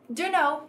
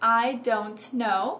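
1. As palavras se juntam numa forma reduzida só. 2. Os sons do t são claramente pronunciados. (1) "usando a contração informal" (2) "pronunciando os T's"

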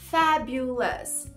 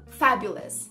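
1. A palavra é falada devagar e alongada. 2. A palavra é falada rápido e compacta. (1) "mais devagar" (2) "Rápido"

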